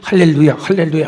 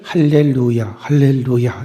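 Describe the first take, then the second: First: It is said very fast but still distinct. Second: It is said slowly, each syllable distinct. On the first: "또박또박하게 아주 빨리" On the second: "이렇게 또박또박"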